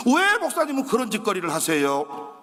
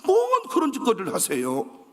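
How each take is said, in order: First: 왜 punched, mocking the locals' question; mocking Jeolla question. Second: 뭔 hit hard in broad Jeolla speech; Jeolla dialect. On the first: Neighbours sneering at the pastor's side businesses, stressed 왜. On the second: Retold or imitated. Neighbour scolding the pastor in Jeolla dialect. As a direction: drop into Jeolla talk, leaning on 뭔. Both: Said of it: "전라도에서는 그런 짓거리라 그래".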